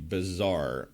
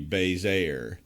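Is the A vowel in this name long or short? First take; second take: short; long. First: The A vowel is short. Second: The A vowel is long. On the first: "that short A" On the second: "So the long"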